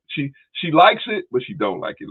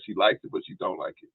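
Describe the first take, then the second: First: "likes" drawn out slowly, higher and louder; slow emphatic. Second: Said in the usual way. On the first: Shown as a demonstration. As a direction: lean hard on "likes", slowly. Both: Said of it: "Let me say it like that".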